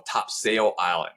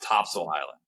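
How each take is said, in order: First: Topsail is said the way newcomers say it. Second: Topsail is said the way locals say it. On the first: The speaker is not from the area. The speaker calls it wrong. "People who move here from out of town and they immediately say like" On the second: The speaker sounds like a local. The speaker calls it right. "you got to know it's"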